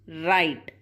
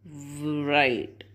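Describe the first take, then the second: First: The word starts with an r sound. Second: The word starts with a w sound. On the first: The speaker calls it right. "W is silent here. We say right" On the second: The speaker calls it wrong. "not right"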